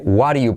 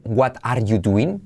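First: "What are you?" as wa-ɾju, verb dropped; native shortcut. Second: "What are you doing?" slow, with a full T and "are"; school pronunciation. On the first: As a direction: link "What are you?" into one flapped sweep. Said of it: "pero no, se dice". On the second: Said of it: "te enseñan a decir". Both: Shown as a demonstration.

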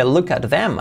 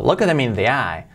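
First: Said in the usual way. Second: "Look them" run together, with no audible "at"; AT swallowed. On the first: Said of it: "no dice look at them". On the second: Shown as a demonstration. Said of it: "aquí se come el at".

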